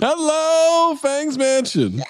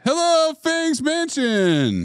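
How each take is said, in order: First: High, slow arena rock holler; rock concert shout. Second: High, stretched arena rock greeting; rock concert shout. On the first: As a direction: stretch it out like a hair metal singer. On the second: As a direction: belt it like a hair metal frontman. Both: Retold or imitated. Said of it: "like a [name] concert".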